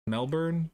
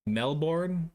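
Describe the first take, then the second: First: Melbourne with a reduced ending, MEL-burn; alternative pronunciation. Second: Melbourne with a full MEL-born, questioning; own pronunciation. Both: Shown as a demonstration. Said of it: "That's how I say it".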